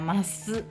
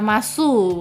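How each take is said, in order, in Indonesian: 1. Vokal u di akhir hampir tidak terdengar. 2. Vokal u di akhir terdengar jelas. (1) "u-nya tidak terlalu terdengar" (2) "bukan gitu"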